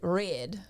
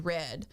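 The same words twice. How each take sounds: First: It is said in a strong local regional accent. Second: It is said in a plain, everyday accent. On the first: "my roommate would pronounce it Red" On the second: "everyone just called me Red"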